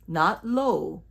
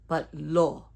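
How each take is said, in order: First: The O is drawn out like English 'low'. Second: The O is short and pure. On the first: The speaker calls it wrong. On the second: The speaker calls it right.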